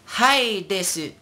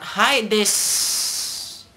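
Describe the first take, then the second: First: High, slow "desu" with the final u heard; Kurumi. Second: High, drawn-out "desu" ending in a long s; dropped final u. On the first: Acted. Teacher quotes an anime line, high de-su. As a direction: stretch "Hi desu", pitched up, ending de-su. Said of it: "Kurumi would say". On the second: Shown as a demonstration. Teacher shows what it's not, hissed des. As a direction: stretch "Hi desu" into dessss. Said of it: "it's not".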